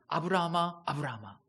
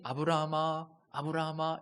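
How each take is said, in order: First: It is called fast and urgently. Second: It is called slowly and calmly.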